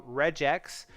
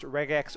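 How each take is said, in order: First: "regex" with a G like J; soft-G pronunciation. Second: "regex" with a hard G, as in go; hard-G pronunciation. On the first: Streamer weighing two pronunciations of the term, soft-G "regex". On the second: Streamer weighing two pronunciations of the term, hard-G "regex". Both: Shown as a demonstration. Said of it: "whether it's pronounced regex or regex".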